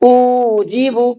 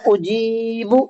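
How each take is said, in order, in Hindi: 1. पहले अक्षर को भी खींचा जाता है। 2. केवल मध्य अक्षर को ही खींचा जाता है। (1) "हमजा खिंच गया, गलत" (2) "उजीबु बिल्कुल सही है"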